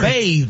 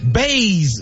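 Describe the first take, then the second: First: The word ends with a th sound. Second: The word ends with a z sound. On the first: The speaker calls it right. "You don't bathe" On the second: The speaker calls it wrong. "Baze, B A Z E, is not a word"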